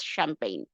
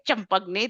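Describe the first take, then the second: First: It is said with a French pronunciation. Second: It is sounded out the way it is spelled. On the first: The speaker calls it right. "They will always pronounce this as" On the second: The speaker calls it wrong. "people who who obviously know French, they will never pronounce this like"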